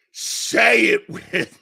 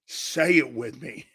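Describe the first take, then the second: First: A raspy loud shout of the chant. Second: Said in the usual way. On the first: Real, not acted. Host yelling to his viewers to chant along. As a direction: yell it to rally the chat.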